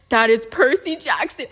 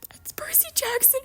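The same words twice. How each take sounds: First: Loud, punched "That is Percy Jackson"; emphatic insistence. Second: Very high, thin whispered squeal; squeaky fangirl whisper. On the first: Fan insists on perfect casting, loud "That is Percy Jackson". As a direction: hit each word of "That is Percy Jackson" loudly. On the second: Fan sees perfect Percy casting, whisper-squealing. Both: Pretend.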